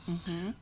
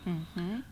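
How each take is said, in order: Both takes have the same delivery.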